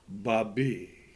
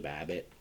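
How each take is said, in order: First: The name is said in a French way. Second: The name is said in an English way. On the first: "pronounce her name French" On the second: "Is it Babbitt like Charlie Babbitt?"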